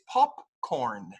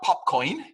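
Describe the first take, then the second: First: The R sound is pronounced. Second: The R sound is dropped. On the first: The speaker calls it right. "it's popcorn. Again, the R sound" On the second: The speaker calls it wrong. "It's not popcorn"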